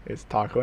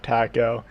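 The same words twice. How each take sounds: First: "taco" with a Spanish open "ah": tah-ko. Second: "taco" with the flat American "a" as in cat. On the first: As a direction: say "taco" the Spanish way, broad ah and crisp t. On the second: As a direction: say "taco" the anglicized way, tack-oh. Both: Shown as a demonstration. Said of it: "I, I, I can say it".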